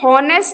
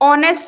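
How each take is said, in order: First: The word begins with an h sound. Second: The word begins with a vowel sound. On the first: The speaker calls it wrong. "यहां पे हॉनेस्ट नहीं बोलेंगे" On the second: The speaker calls it right. "ऑनेस्ट बोलेंगे"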